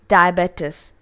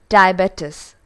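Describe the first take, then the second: No difference in how they are said.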